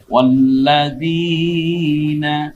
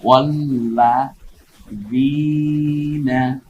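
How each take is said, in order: First: ওয়াল্লাযীনা joined, long held যী; মিলিয়ে টেনে পড়া. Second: ওয়াল্লাযীনা split wal-lā, then long zīna; ভেঙে ভেঙে পড়া. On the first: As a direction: chant ওয়াল্লাযীনা unbroken and slow. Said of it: "এক আলিফ টেনে বলি". (একটানে যী টেনে পড়া) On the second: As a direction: sound out ওয়াল্লাযীনা slowly with a pause midway. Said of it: "জেরের পরে ইয়া সাকিন". (ওয়াল্লা, যীনা থেমে টেনে পড়া) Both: Shown as a demonstration.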